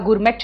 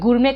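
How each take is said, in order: First: The word ends with a clear t sound. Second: The word ends without any t sound. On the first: The speaker calls it wrong. "गुरमेट नहीं कहा मैंने" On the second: The speaker calls it right. "गुरमे में टी silent है। गुरमे कहा"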